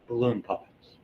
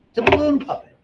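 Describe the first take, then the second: First: Said in the usual way. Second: Much higher, louder squeak; squeaky high voice. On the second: Pretend. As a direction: squeak it like a toy. Squeaky voice for balloon puppet.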